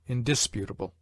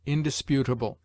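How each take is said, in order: First: Indisputable with DIS stressed, in-DIS-putable; stress on second syllable. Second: Indisputable with PU stressed, in-dis-PU-table; stress on third syllable. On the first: Reader showing the rejected accent, indisputable stressed on DIS. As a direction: put the main beat of indisputable on DIS, not PU. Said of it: "rather than". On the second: Reader giving the recommended accent, indisputable stressed on PU. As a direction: put the main beat of indisputable on PU. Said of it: "We should therefore say". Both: Shown as a demonstration.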